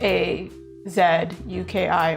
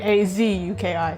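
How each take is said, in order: First: The letters are spelled in a non-American way. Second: The letters are spelled in an American way.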